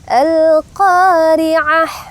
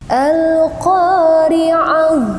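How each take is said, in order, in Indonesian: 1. H di akhir itu keras, berasal dari tengah tenggorokan. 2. H di akhir itu berdesah, berasal dari bagian bawah tenggorokan. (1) "kesalahan pertama yang sering dibaca itu al-qari'ah" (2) "ha yang berada di bawah tenggorokan gitu ya, mengarah ke dada"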